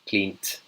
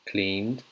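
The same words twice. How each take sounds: First: The ending is pronounced as a T sound. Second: The ending is pronounced as a D sound. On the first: The speaker calls it wrong. "if I read it with a T, you can't say" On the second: The speaker calls it right. "So that's the D sound"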